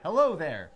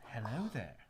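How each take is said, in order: First: It is said in a plain American accent. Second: It is said in a British accent. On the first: The speaker calls it wrong. "You you didn't really do it right. You were like" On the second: The speaker calls it right. "You should have at least tried a British accent"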